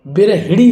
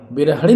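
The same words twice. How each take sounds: First: बिरहिड़ी with "hi" in the middle; short i after ह. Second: बिरहड़ी with "ha" in the middle; i missing after ह. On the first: Teacher giving the correct word, बिरहिड़ी with a clear "hi". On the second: Teacher showing the mistake, बिरहड़ी with "ha". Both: Shown as a demonstration. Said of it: "बिरहड़ी नहीं".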